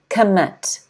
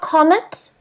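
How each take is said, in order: First: The stress is on the second syllable. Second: The stress is on the first syllable. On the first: The speaker calls it right. "the stress is on the second syllable" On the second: The speaker calls it wrong. "Not commit"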